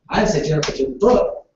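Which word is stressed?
book. The word book carries the stress. Something other than the book was taken. "Jennifer took my phone, not the book"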